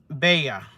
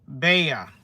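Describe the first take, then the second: No difference in how they are said.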